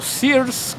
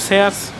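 First: The name has an American English pronunciation. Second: The name has a Spanish pronunciation. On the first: This is how people in the United States say it. "como dicen los amigos de allá, los vecinos del norte" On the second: This is how people locally say it. "nosotros siempre decimos Sears"

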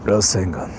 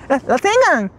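First: It is said in a deep voice. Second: It is said in a normal voice.

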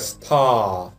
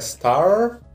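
First: It is said with a British accent. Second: It is said with an American accent. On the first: "британская" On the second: "Американская"

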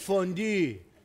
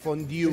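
First: The final vowel has no 'yoo' glide. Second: The final vowel has a 'yoo' glide. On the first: The speaker calls it right. "Es fondue" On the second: The speaker calls it wrong. "no es IU, no es fondue"

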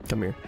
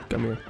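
The two takes are said the same way.

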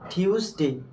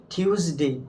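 The two takes are said the same way.

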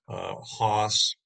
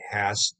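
First: The vowel is a long 'ah' sound. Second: The vowel is the short 'a' sound. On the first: "I want to use the German pronunciation" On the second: "it's supposed to be Hass as in pass"

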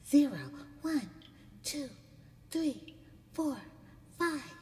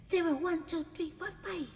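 First: The numbers are counted at a slow pace. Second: The numbers are counted at a fast pace.

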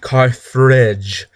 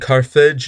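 First: It is said with an added R sound. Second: It is said without an added R sound. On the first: The speaker calls it wrong. "not Carthage, ... some people add an R in there, and I do not like that" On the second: The speaker calls it right. "I am saying Carthage"

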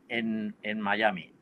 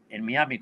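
First: Miami is said with an English-style pronunciation. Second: Miami is said with a Spanish-style pronunciation.

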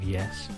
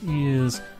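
First: The word is said in the ordinary way. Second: The word is said in the mocked way. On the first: "instead of" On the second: "and ears instead of yes"

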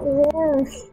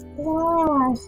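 First: The word is said with two syllables. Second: The word is said with one syllable. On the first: The speaker calls it wrong. "Why did they put the extra syllable in?" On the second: The speaker calls it right. "It's wharf"

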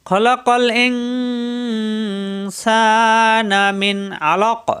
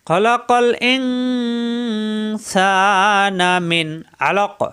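No difference in how they are said.

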